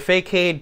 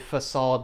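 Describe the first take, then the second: First: The word is said with an anglicized pronunciation. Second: The word is said with its French pronunciation. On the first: The speaker calls it wrong. "if you want to pronounce it incorrectly" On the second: The speaker calls it right. "but it's actually facade because uh, it's originally a French word"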